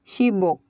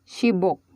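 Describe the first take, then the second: No difference in how they are said.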